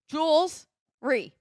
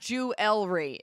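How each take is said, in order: First: The word is said with two syllables. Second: The word is said with three syllables. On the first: The speaker calls it right. "It's Jules. Jules Ree" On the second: The speaker calls it wrong.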